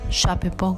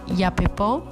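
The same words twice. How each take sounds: First: It is said with a local Spanish-style pronunciation. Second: It is said with a careful Guaraní-style pronunciation. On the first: This is how people say it locally. The speaker calls it wrong. "como le decimos acá" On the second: This is the proper way to say it. The speaker calls it right. "bien dicho"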